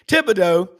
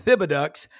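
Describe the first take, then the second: First: The name is said the local Louisiana way. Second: The name is said the way Wisconsin people say it.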